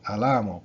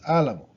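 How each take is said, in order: First: The stress is on the second syllable. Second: The stress is on the first syllable. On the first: The speaker calls it wrong. "because it'd be the second to last" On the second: The speaker calls it right. "because we write down the accent"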